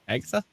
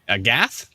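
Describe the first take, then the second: First: The name ends with a final 'uh' vowel. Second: The name ends on the consonant, no final vowel. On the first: The speaker calls it wrong. "Is that how you pronounce it?" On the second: The speaker calls it right. "You sure it's Agath?"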